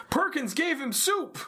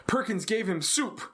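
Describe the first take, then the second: First: "Perkins gave him soup!" much higher, rising on "soup"; excited repeat. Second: Said in the usual way. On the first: Retold or imitated. Jake telling the others his news, mock excited. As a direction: repeat it with mock disbelief, climbing high. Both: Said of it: "and Jake's like".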